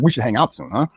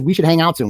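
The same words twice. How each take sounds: First: Lower, veiled mock threat on the repeat; mildly threatening. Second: Said in the usual way. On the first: Host mimicking a text that sounds threatening, mildly menacing. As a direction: echo it as a faintly menacing invitation. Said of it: "sounds a little threatening". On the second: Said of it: "Then he says".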